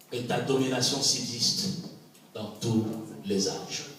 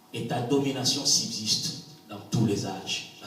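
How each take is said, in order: The two takes are said the same way.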